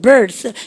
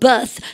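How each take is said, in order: First: It is American with an R sound. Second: It is British with no R sound.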